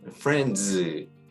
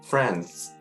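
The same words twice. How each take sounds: First: The ending is forced with a full d sound. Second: The ending is relaxed, close to a plain s. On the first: The speaker calls it wrong. "억지로" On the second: The speaker calls it right. "좀 더 편하게"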